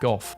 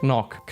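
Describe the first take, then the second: First: The name ends in an f sound. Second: The name has throaty consonant sounds. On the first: The speaker calls it wrong. "British people pronounce it Goff" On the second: The speaker calls it right. "Vincent van Gogh is Dutch, so his name is actually pronounced"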